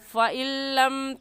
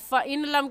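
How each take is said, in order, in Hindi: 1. n छोड़ दिया जाता है और l दोहरा पढ़ा जाता है। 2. n को l से पहले अलग से बोला जाता है। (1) "जज़म वाला हर्फ नून है उसे छोड़ देंगे और ऐसे कहेंगे" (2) "फ़इन लम कहना गलत है"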